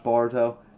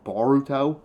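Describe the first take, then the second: First: The middle 'or' sound is light and reduced. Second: The middle 'or' sound is full and emphasized. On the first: "the way I pronounce Boruto" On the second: "I have to put more pronunciation on the or part of it"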